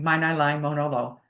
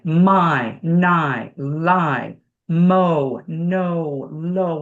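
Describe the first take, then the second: First: Each vowel is cut short and not held. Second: Each vowel is held long and over-articulated. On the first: The speaker calls it wrong. "We're not going" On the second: The speaker calls it right. "We're holding the vowel"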